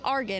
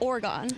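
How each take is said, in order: First: It is said the local Philadelphia way, like Argon. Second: It is said the standard outsider way, like Oregon. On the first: This is how locals say the street name. "Oregon Ave is Argon" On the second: This is how people from elsewhere say the name. "instead of Oregon"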